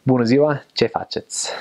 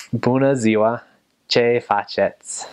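First: Quicker Romanian accent, dropping away at the end; better Romanian accent. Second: Slow American-accented Romanian greeting; drawn-out American vowels in Romanian; bad American accent. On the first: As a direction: say it with a more native Romanian accent. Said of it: "And then a better one". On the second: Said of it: "So a bad accent would be". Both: Shown as a demonstration.

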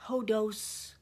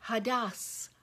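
First: "hodos" said with O vowels, the wrong way; mispronounced. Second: "hadas" with open AH vowels, HAH-dahs; corrected pronunciation. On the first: Teacher first says the Greek word wrong, "hodos". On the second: Teacher corrects herself, saying "hadas" with open ah vowels. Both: Shown as a demonstration. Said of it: "it's pronounced".

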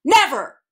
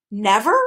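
First: Loud, high, falling "Never!"; forceful, angry exclamation; emphatic repeat. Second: Questioning "Never?", pitch lifting at the end; mildly incredulous question; slight disbelief. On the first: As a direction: slam it down as a final refusal. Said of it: "he repeated". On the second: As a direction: ask it with a touch of disbelief. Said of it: "slightest touch of disbelief in his voice". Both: A narrator's reading.

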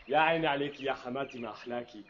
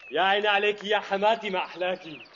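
First: Soft mock praise. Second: Said in the usual way. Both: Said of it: "repeats phrase differently".

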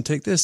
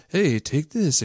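First: Upbeat TV ad pitch, "this" rising and held. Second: Upbeat TV ad pitch, take ending on a falling "this". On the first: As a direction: pitch it like a hopeful commercial. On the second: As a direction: sell it like a cheesy commercial. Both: Retold or imitated. Mimicking a drug ad.

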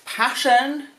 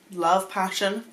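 First: Passion said higher and louder; emphatic. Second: Said in the usual way. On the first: Shown as a demonstration. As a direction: lean hard on passion, rising.

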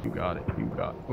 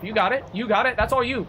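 First: Very low, soft aside; low, quiet repeat. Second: High, lilting encouragement; high-pitched cheering on. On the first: Streamer quietly handing it over to the game, low murmur. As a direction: drop it deep and quiet. Same words, dropped low. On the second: Streamer egging the game on with the lights, high-pitched cheering. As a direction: urge them on in a raised pitch. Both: Real, not acted.

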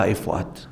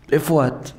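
First: Anxious low mutter. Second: Said in the usual way. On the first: Retold or imitated. Husband calling wife anxiously.

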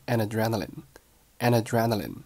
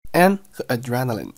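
First: "an adrenaline" said as a-na-drenaline; linked an adrenaline. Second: Said in the usual way. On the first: Shown as a demonstration. Teacher shows linking, "an adrenaline" as one word. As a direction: carry the n of "an" into "adrenaline". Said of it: "连读成了an adrenaline". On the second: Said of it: "An和adrenaline连读".

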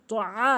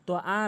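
First: তো আ with throat-squeezed আ; correct ain. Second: তো আ with plain open আ; wrong hamza. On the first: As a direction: press the আ of তো আ from mid-throat. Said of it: "আইনের উচ্চারণ সঠিকভাবে". (তো আ, হলক থেকে আইন) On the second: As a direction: say তো আ easily, no throat squeeze. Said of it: "তো আ না". (তো আ, আইন ছাড়া) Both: Shown as a demonstration.

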